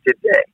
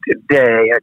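First: Real early-morning voice crack. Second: Said in the usual way. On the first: Real, not acted. Singer excusing a morning croak to the interviewer, voice cracking. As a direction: let the voice break on "today". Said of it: "I sound like one of the Brady Bunch". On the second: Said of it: "Excuse me".

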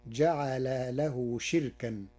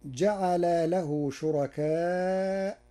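First: شركا as "shirkan", kasra shin, no hamza; Warsh reading. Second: شركاء as "shurakaa" with hamza; slow, drawn شركاء with hamza; Hafs reading. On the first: Sheikh demonstrating Warsh's shortened شركا. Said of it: "فتصير". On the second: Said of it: "قرأ ورش كلمة شركاء". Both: Shown as a demonstration.

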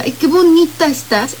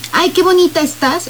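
First: A rehearsed compliment falling flat on bonita; forced compliment. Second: A quick, natural compliment rising on bonita; spontaneous compliment. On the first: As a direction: say it as if you had to. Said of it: "esto ya no es espontáneo". (cumplido forzado, cayendo en bonita) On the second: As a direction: say it as if it just slipped out. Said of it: "es espontáneo". (cumplido espontáneo, natural, subiendo en bonita) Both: Shown as a demonstration.

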